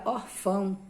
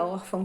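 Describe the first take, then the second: First: "orfão" stressed on the final "fão"; stress on last syllable. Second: "órfão" stressed on the "ór"; stress on first syllable. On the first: Teacher showing the word without its accent, "orfão" stressed on "fão". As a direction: move the weight onto "fão" in "orfão". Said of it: "não seria órfão, seria orfão". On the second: Teacher contrasting the accented word, "órfão" with first-syllable stress. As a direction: hit the first syllable of "órfão", let "fão" fall away. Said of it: "se não tivesse o acento". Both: Shown as a demonstration.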